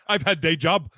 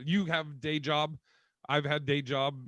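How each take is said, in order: First: Louder, blunt caveman grunt; mock caveman speaking broken English. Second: Caveman talk. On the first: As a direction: say it like a proud caveman. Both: Shown as a demonstration. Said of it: "talking like a caveman".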